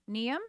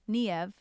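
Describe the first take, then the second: First: The name ends with an M sound. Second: The name ends with a V sound. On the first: "I would be like Niam, like Liam, but Niam" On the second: "There's a V. I'm sorry"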